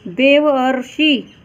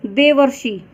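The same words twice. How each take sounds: First: Slow demonstration. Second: Said in the usual way. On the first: Shown as a demonstration. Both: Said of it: "उच्चारण करने पर".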